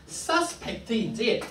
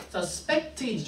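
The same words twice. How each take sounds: First: "suspect" said SUS-pect, front stressed; stress on first syllable. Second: "suspect" said sus-PECT, back stressed; stress on second syllable. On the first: Teacher compares two accent placements, "suspect" with strong SUS. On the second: Teacher compares two accent placements, "suspect" with strong PECT. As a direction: lean on the last syllable of "suspect". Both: Shown as a demonstration. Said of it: "우리가 어디에 감세를 두느냐".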